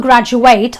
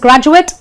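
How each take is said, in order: First: The last syllable sounds like eight. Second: The last syllable sounds like it. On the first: It is used as a verb. "the ate in this word becomes an eight" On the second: It is used as a noun. "the ate becomes an it"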